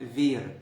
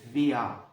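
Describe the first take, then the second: First: The word ends with a clear r sound. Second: The word ends with a vowel-like a sound. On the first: "في الأول خالص أول ما بتتعلم لغة" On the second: "بعد كده شوية هتسمعها بتقلد فيا"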